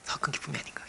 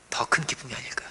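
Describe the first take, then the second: First: Breathy whisper, softer still. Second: Hushed, almost whispered question; soft musing. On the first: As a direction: barely voice the question. Repeated even softer. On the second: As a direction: let it fall to a breath. Preacher muses softly. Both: Real, not acted.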